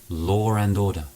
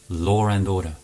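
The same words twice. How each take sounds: No difference in how they are said.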